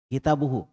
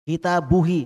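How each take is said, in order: First: The final vowel is 'u'. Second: The final vowel is 'i'. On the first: The speaker calls it right. "Makanya tetap hu saja" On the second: The speaker calls it wrong. "nah itu berat diucapkan"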